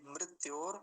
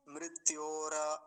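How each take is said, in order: First: मृत्योर stopping on the r; half final r. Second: मृत्योर drawn out as mrit-yo-ra; full final ra. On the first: Teacher correcting the ending, half final r. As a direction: close मृत्योर as mrit-yor, no final a. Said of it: "रेफ को पूरा नहीं बनाएंगे". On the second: Teacher showing the wrong ending, full final ra. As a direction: add an open a after the r of मृत्योर. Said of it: "ऐसा नहीं करेंगे". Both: Shown as a demonstration.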